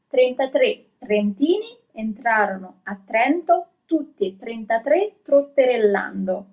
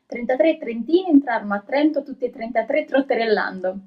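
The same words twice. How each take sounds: First: It is read at a slow pace. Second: It is read at a fast pace. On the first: "I'm going to read it a little bit slower" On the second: "I'm gonna try it"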